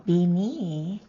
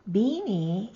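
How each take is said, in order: First: "Bini" with the stress moved to NI; Mountain Maidu stress. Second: "Bini" with the stress on BI; Concow stress. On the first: Teacher contrasting Mountain Maidu with Concow, second-syllable stress. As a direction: lean on the last syllable of "Bini". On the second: Teacher giving the Concow word for net, first-syllable stress. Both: Shown as a demonstration. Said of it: "you may need to change the stress".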